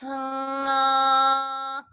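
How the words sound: The voice resonates forward in the face. "that's a good position ... it's staying forward"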